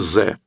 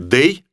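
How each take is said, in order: First: The word starts with a z sound. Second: The word starts with a th sound. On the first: The speaker calls it wrong. "ни в коем случае не говорите «ze»" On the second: The speaker calls it right. "Лучше скажите «they»"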